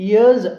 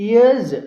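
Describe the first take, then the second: No difference in how they are said.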